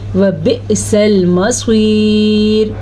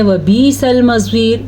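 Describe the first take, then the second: First: The first vowel is a short i sound. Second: The first vowel is a long ee sound. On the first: The speaker calls it right. "सही क्या है?" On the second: The speaker calls it wrong. "बाज़ लोग पढ़ते हैं ... ये गलत है"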